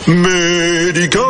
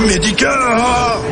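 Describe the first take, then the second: First: The voice sounds clear and strong. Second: The voice sounds hoarse and strained. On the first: The sore throat has been relieved. The speaker calls it right. "C'est beaucoup mieux" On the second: The speaker has a sore throat. The speaker calls it wrong. "mal à la gorge"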